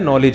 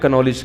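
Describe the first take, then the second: First: The k at the start is silent. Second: The k at the start is sounded. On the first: The speaker calls it right. "मुझे पता है ये केस silent है" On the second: The speaker calls it wrong. "मैं मजाक में कनॉलेज कह देता हूं"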